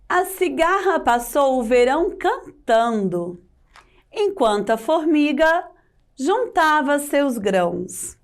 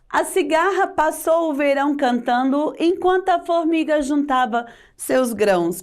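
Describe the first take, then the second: First: It is read with intonation and a pause. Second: It is read flat, with no pauses. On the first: The speaker calls it right. "com a sua devida pontuação" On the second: The speaker calls it wrong. "Sem entonação, sem pausas"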